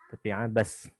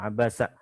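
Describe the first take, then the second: First: The word ends on a bare consonant. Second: The word ends with an added vowel. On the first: The speaker calls it right. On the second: The speaker calls it wrong. "bukan Abasa"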